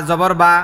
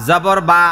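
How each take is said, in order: The two takes are said the same way.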